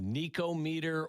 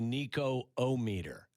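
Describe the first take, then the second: First: There is no extra syllable between Nico and meter. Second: An extra 'oh' syllable comes before meter. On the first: The speaker calls it right. "it would be smoother without the middle O" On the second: The speaker calls it wrong. "the Nico O-meter"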